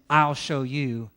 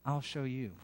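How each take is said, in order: First: It is said in a threatening, vengeful tone. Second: It is said in a warm, gentle tone. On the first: It is a threat of revenge against an enemy. The speaker calls it wrong. "instead of saying" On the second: It is an offer to demonstrate what God is like. The speaker calls it right. "we just say"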